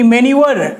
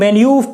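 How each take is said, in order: First: The word ends with an r sound. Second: The word stops without a final r sound. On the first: The speaker calls it wrong. "मैन्यूवर नहीं" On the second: The speaker calls it right. "मैन्यूव पढ़ते हैं इसको, मैन्यूव वहां पे ही जाके रुक जाते हैं"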